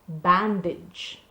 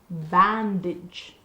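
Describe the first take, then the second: No difference in how they are said.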